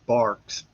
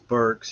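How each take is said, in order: First: The vowel sounds like 'ar' in car. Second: The vowel sounds like 'ur' in fur. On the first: The speaker calls it wrong. "the P A announcer called me Barks" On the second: The speaker calls it right. "my last name is Burks"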